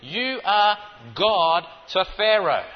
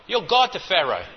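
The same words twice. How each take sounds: First: Slow, with ARE in You are God to Pharaoh pressed hard; You ARE God to Pharaoh, spelled out slowly; stress on ARE. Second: Said in the usual way. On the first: Shown as a demonstration. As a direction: lean on the word are, slowly. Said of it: "That's all he was saying to him". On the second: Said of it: "Really is what God was saying".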